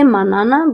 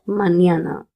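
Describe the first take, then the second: First: The middle consonant is a plain n sound. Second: The middle consonant is an ny sound. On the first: The speaker calls it wrong. "you cannot say manana" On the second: The speaker calls it right. "but mañana"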